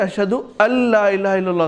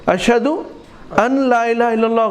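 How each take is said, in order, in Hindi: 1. n की आवाज़ अगले l में मिल जाती है। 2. n की आवाज़ l से पहले साफ़ बोली जाती है। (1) "सही" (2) "गलत है"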